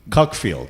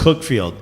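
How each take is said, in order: First: The first vowel sounds like 'cuck'. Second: The first vowel sounds like 'cook'.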